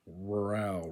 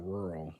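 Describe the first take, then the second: First: "Rural" as ru-RAL; full "al" closing "Rural"; Spanish ending. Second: Said in the usual way. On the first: Shown as a demonstration. Learner reading the Spanish word, "Rural" with full "al". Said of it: "stressed at the last syllable". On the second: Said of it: "words that end in al".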